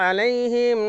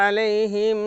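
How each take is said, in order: Both takes have the same delivery.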